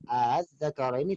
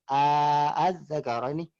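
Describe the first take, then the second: First: The two hamzas are joined without a long vowel. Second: A long vowel is inserted between the two hamzas. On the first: The speaker calls it right. "yang tadi yang az-zakara ini" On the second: The speaker calls it wrong. "tidak bisa dibaca dengan az-zakara ini, tidak"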